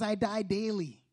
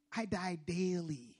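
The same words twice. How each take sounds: First: Said in the usual way. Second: "I die daily" drawn out slowly; slow emphasis. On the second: Shown as a demonstration. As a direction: let each word of "I die daily" sink in. Repeats Paul's words slowly for emphasis.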